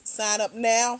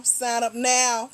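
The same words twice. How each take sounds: First: Said in the usual way. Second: "Sign up now" stretched out slowly, each word leaned on; slow emphatic repeat. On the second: Acted. Host nudging viewers to sign up, slow and emphatic. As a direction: drag out "Sign up now" to drive it home.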